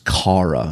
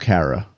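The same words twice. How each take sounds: First: The name is said in a British accent. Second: The name is said in a New York accent. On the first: "she's got like a British accent" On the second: "I just said it in my New Yorkese inflected tones"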